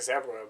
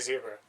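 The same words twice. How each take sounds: First: It is said in a British or Australian pronunciation. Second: It is said in the speaker's own American pronunciation. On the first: This is how people in other countries say it. "other people say zebra ... they say that in like fucking Australia or the U K" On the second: This is how the speaker's own region says it. "I say zebra"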